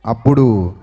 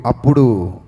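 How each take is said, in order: Both takes have the same delivery.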